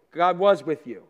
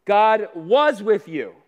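First: Said in the usual way. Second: God was with you dragged out, each word slow and weighty; first take, slowed for emphasis; slow emphatic. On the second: Shown as a demonstration. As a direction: lean hard on every word, slowly. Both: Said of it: "Number two".

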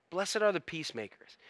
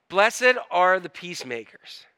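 First: Much softer verse repetition; quiet, reflective scripture echo; hushed repeat. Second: Said in the usual way. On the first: Real, not acted. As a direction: drop the volume and let it sink in.

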